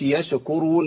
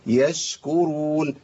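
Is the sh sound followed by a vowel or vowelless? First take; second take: vowel; vowelless. First: The sh sound is followed by a vowel. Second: The sh sound has no vowel after it. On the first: The speaker calls it wrong. "ما قولش يشكرون، ما تنفعش خالص" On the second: The speaker calls it right. "الشين ساكنة"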